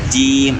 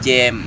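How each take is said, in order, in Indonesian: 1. Diawali j dan vokalnya i. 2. Diawali j dan vokalnya a. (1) "jadi agak ditarik ke bawah supaya kasrohnya betul-betul tam sempurna" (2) "jangan jam jam, nah, itu salah ya"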